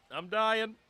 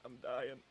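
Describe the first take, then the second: First: Higher, strained choking cough; choking, louder. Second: Coughing after choking on water; strained, sputtering after water went down wrong pipe. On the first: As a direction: force the words out while choking. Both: Real, not acted. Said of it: "The water went down the wrong pipe".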